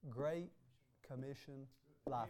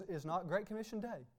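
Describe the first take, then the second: First: Great Commission spaced out and softer, landing on life; stress on life. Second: Said in the usual way. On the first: Shown as a demonstration. Preacher corrects Day to life, stressing life.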